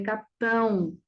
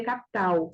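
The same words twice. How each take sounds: First: Capitão, with a nasal final ão; "capitão" with the tilde's nasal diphthong at the end; nasalized ending. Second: Capital, ending without nasalization; "capital" with no tilde sound at the end; non-nasal ending. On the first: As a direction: say "capitão" letting the last syllable ring through the nose. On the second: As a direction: say "capital" with an oral, un-nasalized last syllable. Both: Shown as a demonstration. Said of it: "Tio é um sinal nasalador".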